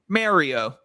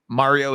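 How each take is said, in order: First: The name is said the Canadian way. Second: The name is said in a standard, non-Canadian way.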